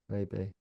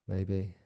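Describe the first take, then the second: The two takes are said the same way.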